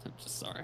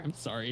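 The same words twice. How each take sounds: First: Breathy whispered "sorry"; whispered apology. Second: Said in the usual way. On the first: Acted. Teasing his friend about the Frieren dub, a hushed mock apology.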